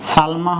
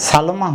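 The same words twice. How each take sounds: First: "সালমা" as salma, two syllables; joined consonants. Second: "সালমা" as saloma, three syllables; extra middle vowel. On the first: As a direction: join l and m directly in "সালমা". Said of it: "লর নিচে হসন্ত দিলে". (হসন্ত দিয়ে "সালমা") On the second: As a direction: put an o after the l in "সালমা". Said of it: "তা না হইলে". (হসন্ত ছাড়া "সালমা") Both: Shown as a demonstration.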